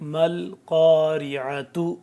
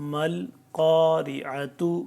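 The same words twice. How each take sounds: The two takes are said the same way.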